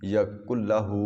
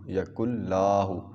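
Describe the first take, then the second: First: The vowel in the 'la' syllable is kept short. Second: The vowel in the 'la' syllable is drawn long. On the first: The speaker calls it right. "हु को थोड़ा सा बेशक लंबा कर दें।" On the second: The speaker calls it wrong. "लाहू नहीं पढ़ना, ये मेन गलती है। ... ये गलत है।"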